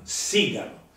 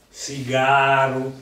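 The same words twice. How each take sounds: First: The stress is on the first syllable. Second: The stress is on the second syllable. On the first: This is the standard Italian form. "è sdrucciola in italiano" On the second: This is the form used in other varieties. "in altre invece lo diciamo piano"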